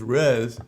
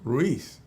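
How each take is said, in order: First: The name is said like Rez. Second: The name is said like Ruiz. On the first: The speaker calls it wrong. "say it how you think it should be, which is Rez" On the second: The speaker calls it right. "and then I say flip it"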